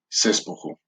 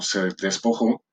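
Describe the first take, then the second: First: The two e vowels are merged together. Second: The two e vowels are kept separate.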